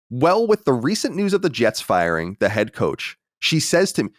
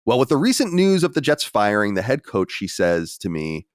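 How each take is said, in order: First: Slower second pass at "Well, with the recent news"; careful re-read. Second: Said in the usual way. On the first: Real, not acted. Host restarts a stumbled listener letter, "Well, with the recent news" read slower and deliberately. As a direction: take "Well, with the recent news" slowly, lifting "she says to me". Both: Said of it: "we gotta get a comma in there".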